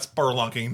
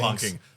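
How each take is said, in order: First: The word has an R sound after the first vowel. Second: The word has no R sound after the first vowel. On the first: The speaker calls it wrong. "Not spurlunking" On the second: The speaker calls it right. "There's no fucking R"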